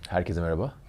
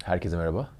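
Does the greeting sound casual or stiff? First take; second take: casual; casual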